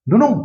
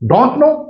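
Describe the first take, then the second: First: The words blend into a short reduced form. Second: Both words are said fully and separately. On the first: "नहीं तो वो डो नो इस तरह से आता है" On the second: "एक वर्ड आता है डोंट नो"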